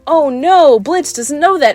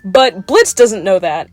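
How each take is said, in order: First: Higher-pitched, hammed-up "oh no"; mock dismay. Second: Said in the usual way. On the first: Viewers learning what Blitz doesn't know, mock dismay. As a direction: imitate an audience gasping along in worry. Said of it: "we're supposed to be like".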